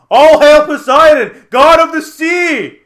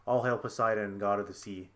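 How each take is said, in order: First: Very loud, high, drawn-out proclamation; slow, full-voiced heroic yell; yelling battle cry. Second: Soft, low recital; understated, subdued repeat of a chant; thought in the head. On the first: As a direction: bellow it with the trident held high. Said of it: "he's yelling this at the crab". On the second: Retold or imitated. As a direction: murmur it like a passing thought. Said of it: "a thought coming to my head".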